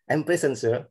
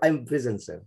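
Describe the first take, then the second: First: "present" as PREZ-en, open first e; noun-style pronunciation. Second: "prison" as pri-ZEN, i first; verb-style pronunciation. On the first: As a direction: say "present" with eh first, pitched higher. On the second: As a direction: offer "prison" with short i and a z. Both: Shown as a demonstration. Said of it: "Which is correct?".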